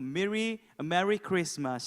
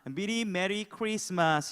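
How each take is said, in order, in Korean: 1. 혀를 굴리는 영어식 억양으로 말합니다. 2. 한국식 억양으로 평범하게 말합니다. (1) "혀를 살짝 굴리면서 이렇게 좀 어, 외국 스타일로 할게요" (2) "좀 상큼하게 인사하겠습니다"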